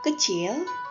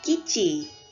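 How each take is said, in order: First: It is said with standard Indonesian pronunciation. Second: It is said with Kupang dialect pronunciation. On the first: "bahasa Indonesianya" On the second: "bahasa Kupangnya"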